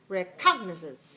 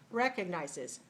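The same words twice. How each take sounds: First: The stress is on the second syllable. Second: The stress is on the first syllable. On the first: The speaker calls it wrong. "If it's this way" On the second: The speaker calls it right. "If I do this way, it's like this"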